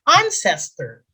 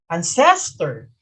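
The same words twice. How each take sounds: First: The stress is on the first syllable. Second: The stress is on the second syllable. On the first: The speaker calls it right. "the accent is on the first syllable" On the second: The speaker calls it wrong. "not ancestor"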